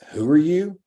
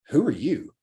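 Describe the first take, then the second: First: It sounds dismissive and brushing off. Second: It sounds interested and impressed. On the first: The listener doubts the speaker matters. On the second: The listener is curious about the speaker.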